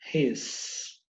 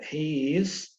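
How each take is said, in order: First: The words merge into one contracted syllable. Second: Two separate full words are said. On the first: The form most speakers commonly use. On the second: Used when listeners should hear each word clearly.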